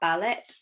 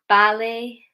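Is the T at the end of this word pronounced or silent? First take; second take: pronounced; silent. First: The final T is pronounced. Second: The final T is silent. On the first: The speaker calls it wrong. "not ballet" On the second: The speaker calls it right. "the letter T, which can sometimes be silent"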